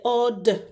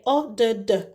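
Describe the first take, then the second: First: The d sound is made once. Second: The d sound is made twice. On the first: The speaker calls it right. "You just say" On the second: The speaker calls it wrong. "You wouldn't say"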